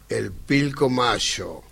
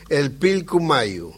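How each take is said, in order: First: The name is said the Buenos Aires way. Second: The name is said the original Quechua way.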